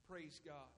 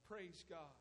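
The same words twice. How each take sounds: The two takes are said the same way.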